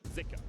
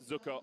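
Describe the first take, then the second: First: The first vowel is an 'ee' sound. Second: The first vowel is not an 'ee' sound. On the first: "it's actually pronounced more with an I" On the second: "it was pronounced Zucker on the L P L English broadcast"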